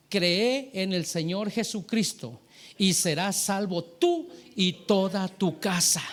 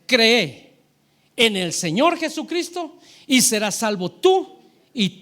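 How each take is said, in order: First: Slow, deliberate recital of scripture; drawn-out, solemn quotation; measured scripture quote. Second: "Cree" punched out loud, then pause; emphatic scripture quote with a loud, isolated "Cree"; stress on CREE. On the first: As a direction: give each phrase of the promise its weight. Recites the promise from Acts. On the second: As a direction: hit "Cree" hard and loud, then carry on forcefully. Repeats promise, hammering belief alone. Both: Real, not acted.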